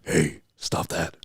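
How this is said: It is said in a deep voice.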